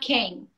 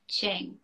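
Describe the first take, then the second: First: The syllable begins with a hard k sound. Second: The syllable begins with a ch-like sound. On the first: This is how an American would say it. The speaker calls it wrong. "Not king" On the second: This is how it is said in Chinese. The speaker calls it right. "That's how you pronounce it in Chinese"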